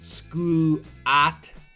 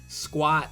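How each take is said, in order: First: The u is a separate oo vowel. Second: The u is a quick w glide. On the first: The speaker calls it wrong. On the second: The speaker calls it right.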